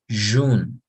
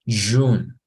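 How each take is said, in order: The two takes are said the same way.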